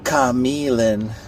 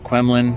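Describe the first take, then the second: First: The name begins with a plain 'k' sound. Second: The name begins with a 'kw' sound. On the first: The speaker calls it right. "apparently it's actually Camilin" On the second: The speaker calls it wrong. "I've been pronouncing this park's name like way wrong"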